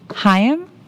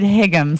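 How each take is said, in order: First: The name is said like Hyam. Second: The name is said like Higgum. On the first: The speaker calls it right. "I think it's Hyam" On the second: The speaker calls it wrong. "last time I said Higgum"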